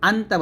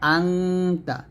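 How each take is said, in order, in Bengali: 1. t-এর আগের n সাধারণ n। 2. t-এর আগের n অনুনাসিক ng। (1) "আন্তা বলবেন না" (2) "আঙ্গুর নকম এখানে"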